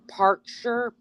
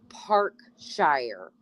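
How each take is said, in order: First: It is said in a British accent. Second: It is said in an American accent. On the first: "I think you guys would pronounce it Parkshire" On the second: "I say, you guys would say it different, but it but I call it Parkshire"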